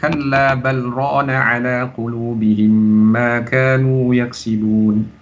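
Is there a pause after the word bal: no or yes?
no. The words run on after bal without pause. "tidak berhenti di bal, Langsung bersambung"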